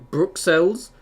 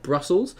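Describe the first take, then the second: First: Bruxelles with an x sounded as "ks"; French pronunciation. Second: Brussels said as English "BRUSS-ulz"; English pronunciation. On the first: Streamer recalling a mix-up over the city's name, French pronunciation of Bruxelles. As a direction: say "Bruxelles" the French way, "brook-SELL". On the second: Streamer contrasting the city's names, English pronunciation of Brussels. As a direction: say "Brussels" the English way, stressed up front. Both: Shown as a demonstration. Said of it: "in French, not Brussels".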